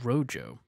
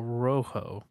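First: The word is said with an English pronunciation. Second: The word is said with a Spanish pronunciation. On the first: The speaker calls it wrong. "but that's not how you pronounce it" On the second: The speaker calls it right. "It's Spanish, so I think you pronounce it"

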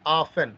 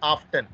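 First: The word is said without a t sound. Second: The word is said with a t sound. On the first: The speaker calls it right. "T is silent" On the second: The speaker calls it wrong. "Not often"

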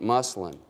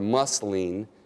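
First: It has a casual Midwestern pronunciation. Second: It has a careful standard pronunciation. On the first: The speaker calls it wrong. "resort to my Midwest diction" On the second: The speaker calls it right. "if I can use more proper"

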